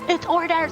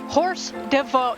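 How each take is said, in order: First: The first word sounds like or, French style. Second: The first word sounds like English horse. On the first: The speaker calls it right. "the theater teacher was like" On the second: The speaker calls it wrong. "So how did I pronounce it?"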